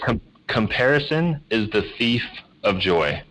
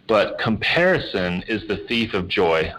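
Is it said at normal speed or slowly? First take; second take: slowly; normal speed. First: It is said slowly and deliberately. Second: It is said at normal conversational speed.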